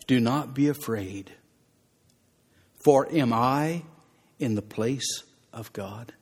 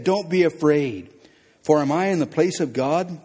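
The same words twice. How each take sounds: First: Gentle Joseph. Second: Forceful preaching. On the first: Joseph reassures his brothers. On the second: Preacher repeats Joseph's words forcefully. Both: Acted.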